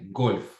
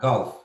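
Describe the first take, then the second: First: The vowel is a rounded O sound. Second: The vowel is closer to an open A sound. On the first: The speaker calls it wrong. "but we don't say golf" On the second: The speaker calls it right. "It's like or ah"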